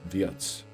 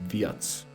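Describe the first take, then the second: Both takes have the same delivery.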